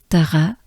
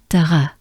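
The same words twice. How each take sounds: The two takes are said the same way.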